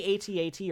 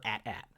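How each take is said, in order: First: A T A T said letter by letter; spelled-out letters. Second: At at said as two short words. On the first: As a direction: say A T A T as four separate letter names. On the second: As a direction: rhyme both halves of at at with cat. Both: Shown as a demonstration. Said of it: "do you say A T A T or at at".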